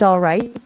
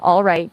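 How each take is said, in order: First: "all right" cut short; short, clipped. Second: "all right" stretched out, falling at the end; drawn out. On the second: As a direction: draw out "all right" as if rolling with it. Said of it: "a drawn out". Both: Shown as a demonstration.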